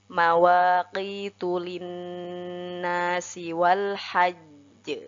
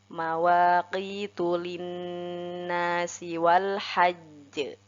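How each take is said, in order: The two takes are said the same way.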